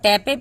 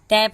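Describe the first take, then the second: First: An extra vowel is sounded after the p. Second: The word ends on the p with no vowel. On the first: The speaker calls it wrong. "ऐसे अगर हम टैपे पढ़ेंगे तो ये wrong होगा" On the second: The speaker calls it right. "टैप हम पढ़े हैं, ई नहीं ना पढ़े"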